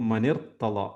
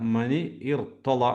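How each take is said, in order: First: The two words are run together as one. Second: The two words are said as separate units.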